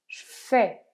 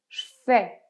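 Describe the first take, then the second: First: The vowel of 'je' is dropped. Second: The vowel of 'je' is dropped.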